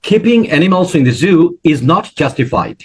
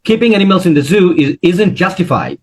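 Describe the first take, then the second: First: The sentence is spoken slowly and clearly. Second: The sentence is spoken quickly and run together. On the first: "একটু থেমে ভালো করে বলবেন" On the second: "এটা কিন্তু দ্রুত বলছেন"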